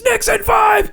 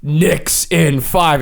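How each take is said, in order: First: High-pitched wrestler's scream; screamed battle cry. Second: Slow, spaced-out reading; measured, half-speed slogan; big words. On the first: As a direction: imitate a wrestler screaming a slogan. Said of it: "Blackout screams". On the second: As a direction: read it out like a big on-screen slogan. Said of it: "in big words, it goes". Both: Retold or imitated.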